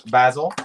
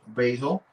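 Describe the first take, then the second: First: It is said the Irish way, like the co-host. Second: It is said in a non-Irish way.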